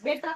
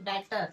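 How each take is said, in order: First: The first vowel sounds like 'bet'. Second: The first vowel sounds like 'bat'. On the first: The speaker calls it wrong. "बेटर नाही" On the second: The speaker calls it right.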